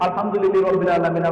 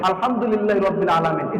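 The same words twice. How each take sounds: First: It is rushed on without stopping after the verse. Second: It is recited slowly with a stop after the verse. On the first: The recitation is done carelessly in one breath. The speaker calls it wrong. "পারি তো এক নিঃশ্বাসে সূরা ফাতিহা শেষ" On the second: The recitation is calm and measured. The speaker calls it right. "প্রত্যেকটা আয়াতের পরে তিনি থামতেন"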